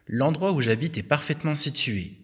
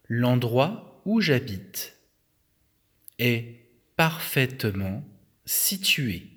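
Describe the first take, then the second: First: The sentence is read at a normal pace. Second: The sentence is read at a slow pace.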